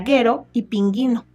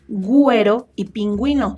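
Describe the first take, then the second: First: The u after the g is silent. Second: The u after the g is pronounced. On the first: The speaker calls it wrong. "Si ustedes no pusieran las diéresis jóvenes, diría guero y pinguino" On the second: The speaker calls it right. "se usa U solo con diéresis... Para conservar su sonido"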